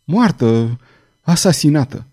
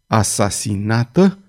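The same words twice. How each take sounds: First: Understated shock, halting between words; a touch of stunned horror; stunned mumble. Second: Low-key, slow questioning menace; understated icy fury; cold fury. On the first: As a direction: mumble it in dazed disbelief. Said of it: "bolborosi Farnes". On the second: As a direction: draw the question out with cold, contained anger. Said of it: "rosti el cu o furie rece". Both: A narrator's reading.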